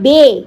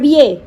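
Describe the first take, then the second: First: The word is said in one syllable. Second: The word is said in two syllables. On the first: The speaker calls it right. "আমি বলেছি না বে।" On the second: The speaker calls it wrong. "আবার বিয়ে?"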